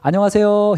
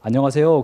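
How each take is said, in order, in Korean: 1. 목소리를 높은 음으로 올렸어요. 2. 목소리가 낮고 가라앉아 있어요. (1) "목소리 톤을 올려서 도레미파솔" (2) "아침에 약간 목소리가 가라앉아요"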